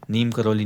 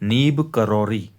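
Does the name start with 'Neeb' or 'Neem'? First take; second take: Neem; Neeb. First: The first word ends with an m sound. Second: The first word ends with a b sound. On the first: The speaker calls it wrong. "नीम करौली सही pronunciation नहीं है" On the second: The speaker calls it right.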